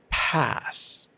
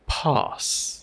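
First: The vowel is a flat, wide-mouthed 'a'. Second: The vowel is a broader, more open 'ah'. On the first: "we'll see things like ah, laugh, or pass" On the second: "But it's more like laugh or pass, the ah sound"

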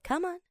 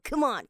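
First: It is said in a gentle, coaxing tone. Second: It is said forcefully from the core. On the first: Encouraging a child or pet to come over. "对小朋友我们会用这种语调，我是叫你的那个动物要过来的时候" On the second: Urging a teammate to hurry and try harder. "用你肚子那个丹田力量哈……用力去发声"

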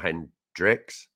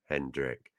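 First: The name ends with an s sound. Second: The name ends without an s sound. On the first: It names the gin brand. The speaker calls it wrong. "he's not a gin. ... But not Hendrick's" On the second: It names the player. The speaker calls it right. "it's Hendrick"

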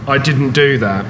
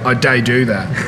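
First: Standard English form, with a full 'didn't'. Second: Black Country dialect form, with 'day' for 'didn't'. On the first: "rather than saying" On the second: "you say"

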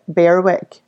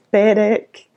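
First: The W in the middle is pronounced. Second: The W in the middle is not pronounced. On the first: The speaker calls it wrong. "everybody here pronounces it Berwick" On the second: The speaker calls it right. "it's a silent W, it's Berwick"

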